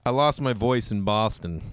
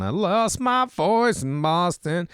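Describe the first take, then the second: First: Said in the usual way. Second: Sung high and slow like a country ballad; sung, country song. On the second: Pretend. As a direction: croon it like a twangy country chorus. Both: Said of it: "country song written about Boston".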